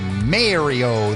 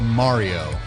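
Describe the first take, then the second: First: Mario is said with a Canadian pronunciation. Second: Mario is said with an Italian pronunciation. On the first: The speaker calls it wrong. "they don't say Mario" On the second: The speaker calls it right. "They go Mario"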